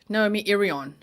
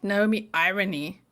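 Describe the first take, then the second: First: The surname ends with an 'on' sound. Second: The surname ends with an 'ee' sound. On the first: The speaker calls it right. "It's Naomi Irion" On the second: The speaker calls it wrong. "It's not Naomi Irony"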